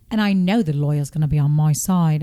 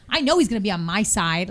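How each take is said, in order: First: Mock posh British voice; regal British accent. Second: Plain, unrefined American delivery; trashy American accent. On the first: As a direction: imitate a regal British speaker. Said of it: "a very British person". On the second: Shown as a demonstration. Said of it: "I sound trashy".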